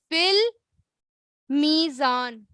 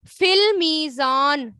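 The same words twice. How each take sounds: First: فی المیزان drawn out very slowly, each sound held; very slow repeat. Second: فی المیزان said slowly with weight on فی; slow model phrase. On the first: Teacher repeats the phrase for students to copy, very slowly. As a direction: stretch فی المیزان out for the class to repeat. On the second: Teacher reads the hadith phrase to the class, slowly. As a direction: read فی المیزان slowly and clearly. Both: Shown as a demonstration. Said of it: "ٹھیک ہے، کس میں؟".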